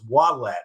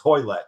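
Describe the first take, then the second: First: The name begins with a W sound. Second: The name begins with an H sound. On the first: The speaker calls it wrong. "we thought it was Wallet" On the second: The speaker calls it right. "It's Hoylett"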